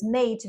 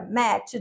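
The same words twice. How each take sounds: First: Said in the usual way. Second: "match" as Australian English says "mate"; Australian accent. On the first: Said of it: "o australiano". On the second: Shown as a demonstration. Teacher showing how mate changes in Australia, Australian accent. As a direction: demonstrate the Australian vowel in "match". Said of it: "mate vira match".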